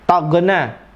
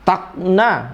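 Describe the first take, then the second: First: The middle consonant is a bounced hard g. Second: The middle consonant sounds like a glottal stop. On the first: "Malah yang lebih parah qalqalah lagi" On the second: "Seolah-olah malah hamzah"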